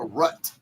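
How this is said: The vowel sounds like the one in but. "It's called a rut"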